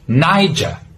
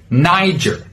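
First: A British accent with an open final R. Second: An American accent with a hard final R. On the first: "if you're from the UK, you would pronounce it with an open R sound" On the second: "with an American pronunciation, you should use a hard R sound"

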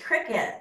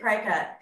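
First: The first syllable sounds like 'crick'. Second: The first syllable sounds like 'cry'. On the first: The speaker calls it right. "told me it's pronounced cricket" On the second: The speaker calls it wrong. "for years I pronounced it Cricut"

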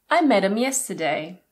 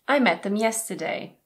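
First: The 'th' sound at the start of 'them' is dropped. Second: The 'th' sound at the start of 'them' is kept. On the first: "or even" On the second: "Them is often reduced to them"

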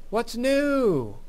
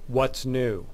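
First: It is said with lively enthusiasm. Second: It is said in a plain, flat way.

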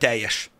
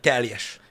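First: The l blends fully into the following j sound. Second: The l and j are each pronounced separately. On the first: This is the ordinary everyday pronunciation. "nem azt mondta" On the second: This is an overly careful, deliberate pronunciation. "a teljes hasonlulásokat nem mondta ki"

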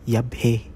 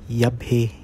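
The two takes are said the same way.

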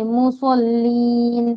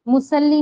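First: The s sound is heavy and full. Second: The s sound is light and thin. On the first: The speaker calls it right. "स्वाद पढ़ना है इसको ... पूर पढ़ा जाता है" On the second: The speaker calls it wrong. "सीन नहीं पढ़ना है, ठीक है? मुसल्लीन नहीं"

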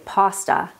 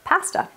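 First: The word is said with an American pronunciation. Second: The word is said with a Canadian pronunciation. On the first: "most Americans say pasta" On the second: "instead of pasta. So pasta is a very Canadian thing"

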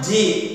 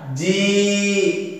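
First: The vowel is short. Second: The vowel is long. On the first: "yang pertama ji pendek" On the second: "maka dipanjangkan ji"

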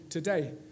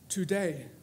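First: The first vowel is reduced to a schwa. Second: The first vowel is a full vowel. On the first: "where in my accent I would normally put a schwa. I would normally say today" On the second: "I didn't put the schwa"

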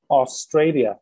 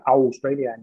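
First: The first vowel sounds like a plain 'o'. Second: The first vowel sounds like a gliding 'au'. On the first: The speaker calls it right. "Đọc là o" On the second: The speaker calls it wrong. "Chứ không phải là"

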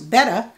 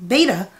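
First: The first vowel sounds like in 'bet'. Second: The first vowel sounds like in 'bay'. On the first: "There are people on YouTube who insist it's pronounced betta" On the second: "like the Greek letter beta"

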